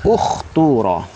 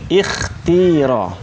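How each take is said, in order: First: The word begins with a u vowel. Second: The word begins with an i vowel. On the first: "dhammah bahagian depan" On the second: "kita boleh baca dengan kasrah"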